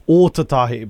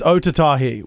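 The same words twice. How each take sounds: First: The first vowel is long. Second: The first vowel is short. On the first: The speaker calls it right. "the correct pronunciation of that word is Otatahi because there's a longer A on the front there" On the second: The speaker calls it wrong. "we usually say"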